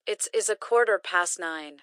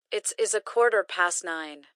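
The two takes are said the same way.

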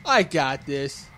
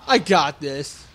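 First: "I got this" drawn out slowly, softer; slow, unsure repeat of "I got this"; slow and quiet. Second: Said in the usual way. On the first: Real, not acted. Gamer repeating to himself, slow and unsure.

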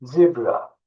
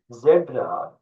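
First: "Zebra" with a long ee, ZEE-bra; English pronunciation. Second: "Zebra" with a Turkish e, ZEH-bra; "Zebra" read as Turkish, open e; Turkish pronunciation. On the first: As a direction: say "Zebra" the English way, first vowel as in "see". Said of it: "Fakat İngilizce okunuşu zebra". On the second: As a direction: say "Zebra" the Turkish way, first vowel as in "bed". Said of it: "Türkçe yazılışı da aynı". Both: Shown as a demonstration.

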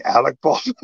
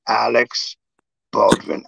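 First: "Alec" said ending in a plain K; correcting to Alec. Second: "Alex" said with an S sound at the end; mistaken name Alex. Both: Retold or imitated. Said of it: "You mean Alec Baldwin?".

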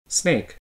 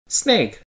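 First: SNAKE with a soft, plain fall; just name it, "Snake" dropping quietly; statement intonation. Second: SNAKE starting high and falling steeply; exclaiming intonation. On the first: Intonation lesson demonstrating sentences, understated fall on "Snake". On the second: Intonation lesson demonstrating sentences, high exclaiming fall on "Snake". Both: Shown as a demonstration. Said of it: "Now listen to these sentences".

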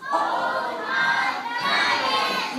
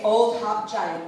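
First: Long, slow, high drawn-out call; a slow, high summoning call. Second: Said in the usual way. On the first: Acted. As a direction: call the giant from far away, stretching every word. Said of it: "He called out". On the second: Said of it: "really loud".

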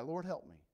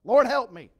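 First: Said in the usual way. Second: Loud, high cry for help; drowning man's shout. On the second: Acted. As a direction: yell it like you're going under. Peter drowning cries out.

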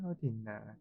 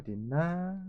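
First: Soft hushed whisper; whispering while hiding. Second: Said in the usual way. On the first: Real, not acted. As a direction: breathe it quietly, hiding from enemies.

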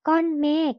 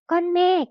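First: ก้อนเมฆ sounded out syllable by syllable; reading pronunciation. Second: Said in the usual way. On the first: Shown as a demonstration. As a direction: read ก้อนเมฆ as two separate syllables, kon-mek. (อ่าน ก้อนเมฆ แยกทีละพยางค์) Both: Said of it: "อ่านว่า".

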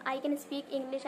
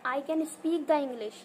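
First: Slow and careful, I can speak English; correct example. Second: Slow, word by word, I can speak the English; wrong example. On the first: Teacher gives students the correct sentence slowly. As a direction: lay out the right sentence word by word. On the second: Teacher shows students the incorrect sentence slowly. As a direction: spell out the wrong version slowly. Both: Shown as a demonstration. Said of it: "ये sentence correct नहीं होता".

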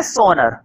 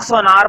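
First: "सोनर" with a short second vowel; textbook pronunciation. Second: "सोनार" with a long aa in the second syllable; variant pronunciation. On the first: Teacher giving the reading to use, "सोनर" with short final vowel. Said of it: "लेकिन पढ़ते क्या है". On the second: Teacher citing how some people say it, "सोनार" with long aa. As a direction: say "सोनार" as so-NAAR, drawn second vowel. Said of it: "इसको कुछ लोग सोनार बोलते हैं". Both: Shown as a demonstration.

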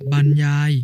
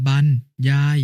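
First: Said in the usual way. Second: บรร as "ban", pause, ยาย; syllable-by-syllable reading. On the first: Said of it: "คำว่า". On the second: Shown as a demonstration. Brother giving an example reading, syllable by syllable: บรร ยาย. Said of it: "อ่านว่า".

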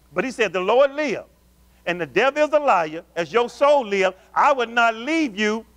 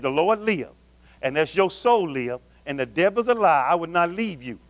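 First: Elisha's vow "As your soul live, I would not leave you" preached raised and slowed; fervent preached vow. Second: Said in the usual way. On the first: Acted. Preacher voicing Elisha's vow to Elijah, fervent. Scripture preached, later read plain.

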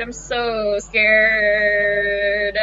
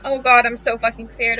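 First: Slow, stretched whimper of fear; drawn-out scared whimper. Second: Said in the usual way. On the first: Real, not acted. Player dreading the character's return, slow scared whimper. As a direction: stretch every word out like a frightened moan. Repeats line, second drawn out.

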